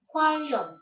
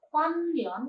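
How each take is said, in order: First: The middle consonant sounds like a double l. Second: The middle consonant sounds like n then l. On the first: The speaker calls it right. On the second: The speaker calls it wrong.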